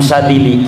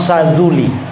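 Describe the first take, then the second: First: The second syllable has the vowel i. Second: The second syllable has the vowel u. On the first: This is how people here usually say it. "Sebagaimana Imam Sadili" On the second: This is the most eloquent form. "padahal yang paling afsah Saduli"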